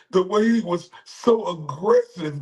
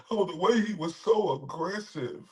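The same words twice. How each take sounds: First: High, mocking quote of the woman; mocking her words. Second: Soft, mocking quote; mocking imitation of the woman. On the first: Streamer mimicking the accuser, high and sneering. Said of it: "And then her say". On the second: Streamer mocking the accuser, soft sneer. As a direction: sneer her words quietly.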